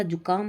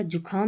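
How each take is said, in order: First: Said in the usual way. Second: जुखाम with breathed "kh"; wrong pronunciation. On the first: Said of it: "होता है". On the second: Shown as a demonstration. Teacher rejecting a mistake, जुखाम said with kh. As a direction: aspirate the middle of जुखाम. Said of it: "नहीं होता".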